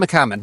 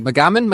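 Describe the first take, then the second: First: "McCammon." said firmly with a falling tune, stress on "Cam"; settled pronunciation. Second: "McCammon?" asked with a rising, questioning tune; unsure pronunciation check. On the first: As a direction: confirm "McCammon." with a final drop. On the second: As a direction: try out "McCammon?" as a hesitant question. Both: Shown as a demonstration. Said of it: "Swan Song by Robert McCammon".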